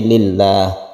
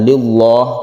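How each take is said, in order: First: The L is pronounced thin and light. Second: The L is pronounced thick and heavy. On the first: The speaker calls it right. "dibaca tarqiq atau tipis" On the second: The speaker calls it wrong. "bukan lillah"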